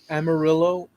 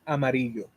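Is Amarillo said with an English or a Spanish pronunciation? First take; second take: English; Spanish. First: It is said with an English pronunciation. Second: It is said with a Spanish pronunciation.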